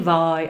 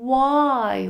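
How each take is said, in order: First: The word begins with a v sound. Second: The word begins with a w sound. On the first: The speaker calls it wrong. "Proč není why" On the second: The speaker calls it right. "ale why? ... To je vyslovené dvojité V"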